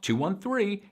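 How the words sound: The pitch rises across the numbers.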